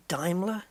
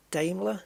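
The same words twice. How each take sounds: First: Daimler as DIME-ler; correct pronunciation. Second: Daimler as DAME-ler; old mispronunciation. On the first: Gamer contrasting both ways, Daimler as DIME-ler. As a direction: say Daimler with an eye vowel. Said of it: "Apparently it's Daimler". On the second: Gamer contrasting both ways, Daimler as DAME-ler. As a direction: say Daimler with an ay vowel. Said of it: "my whole life it was". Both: Shown as a demonstration.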